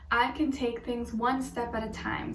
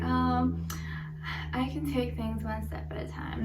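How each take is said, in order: First: It is said with sincere conviction. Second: It is said in a half-hearted, unconvinced way.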